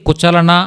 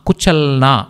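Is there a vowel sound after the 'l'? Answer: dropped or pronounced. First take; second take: pronounced; dropped. First: A full vowel is pronounced after the l. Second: The vowel after the l is dropped. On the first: The speaker calls it wrong. "కుచలన అని చదవకూడదనమాట" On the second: The speaker calls it right. "కుచల్ నా అని చెప్తాం"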